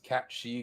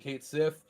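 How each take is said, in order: First: The name sounds like 'cat shee'. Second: The name sounds like 'kate sith'. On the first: This is the Irish pronunciation of the name. "technically the correct way to pronounce the character's name is Cat She because it's Irish" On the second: This is how the speaker has always said the name. "I have since a youth have been calling him Kate Sith"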